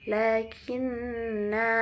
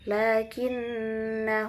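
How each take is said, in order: First: The final vowel is drawn out long. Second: The final vowel is cut short. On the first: "seharusnya kan lakinna" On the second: "langsung lakinna huwallahu. Jadi tidak dibaca panjang"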